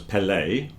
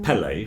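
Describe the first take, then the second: First: The stress is on the second syllable. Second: The stress is on the first syllable. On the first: This is how the name is properly said. The speaker calls it right. "I believe the stress is on the second part" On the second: This is how the family said the name. The speaker calls it wrong. "for some reason we put the stress at the beginning"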